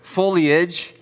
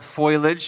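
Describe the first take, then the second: First: The vowel sound comes after the L. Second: The vowel sound comes before the L. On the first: The speaker calls it right. "The I is after the L, not before it. So it's foliage, right?" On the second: The speaker calls it wrong. "It's not foliage"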